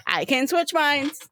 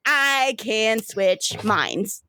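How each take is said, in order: First: Higher, quicker excited repeat; gleeful repeat. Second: Drawn out, very slow reveal; slow proud announcement. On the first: River repeating her trick to her brother, gleeful. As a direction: bounce it out with glee. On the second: River revealing her power to her brother, slowly savoured. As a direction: savour each word slowly. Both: Acted. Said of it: "She goes".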